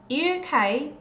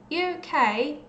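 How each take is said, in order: No difference in how they are said.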